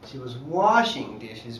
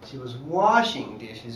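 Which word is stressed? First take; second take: washing; washing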